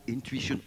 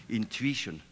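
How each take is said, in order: First: Intuition, with a w-glide: in-TWI-shun; lingering over intuition as a new word; savoring the word. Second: Intuition, spelled out in-tu-i-tion with a falling close; Intuition, said deliberately as if noting it down; careful repeat. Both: Shown as a demonstration. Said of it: "I have to write that down".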